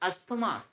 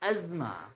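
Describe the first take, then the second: First: The middle 'th' sound is clearly pronounced. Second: The middle 'th' sound is silent, like 'azma'. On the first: The speaker calls it wrong. "It's not अस्थमा" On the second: The speaker calls it right. "It's अजमा"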